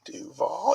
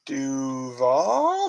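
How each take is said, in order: First: Duval? lightly rising, as a mild question; quizzical Duval. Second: Duval? said as a puzzled question with a rising tune; quizzical Duval. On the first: Retelling the coach's intro, a mild questioning Duval?. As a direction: repeat Duval? as an unsure question. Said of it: "He said, like, it was the weirdest thing". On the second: Imitating the new Jaguars coach's Duval? with a question tune. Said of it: "he said, like, with a question mark". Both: Retold or imitated.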